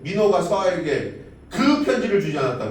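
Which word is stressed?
편지를. The stress falls on the word 편지를. Something was given, but it was not the letter. "민호가 서아에게 뭐가 주길 줬는데 편지를 주진 않은 거지"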